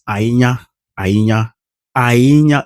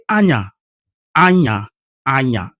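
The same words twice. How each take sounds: First: "Ainya" with the voice tweaked the native Idoma way; "Ainya" in the native Idoma tune. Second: "Anya" missing the native tweak, sounding funny to an Idoma ear; untweaked Idoma. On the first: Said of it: "in Idoma is". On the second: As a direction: say "Anya" plainly, the way a non-native would, pitched up. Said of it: "If you say". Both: Shown as a demonstration.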